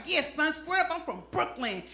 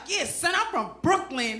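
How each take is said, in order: First: Mock old-school Brooklyn toughness; trying to sound hard. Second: Tough talk that comes out soft; half-hearted Brooklyn swagger; trying hard, sounding soft. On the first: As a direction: play it hard, without raising the voice. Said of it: "trying to sound hard". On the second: Acted. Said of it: "I sound soft".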